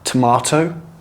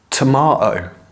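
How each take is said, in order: First: The middle T sound is clearly pronounced. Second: The middle T sound is left out. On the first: "I recommend you pronounce all of your T's" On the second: "the T's in the middle of the word are not pronounced"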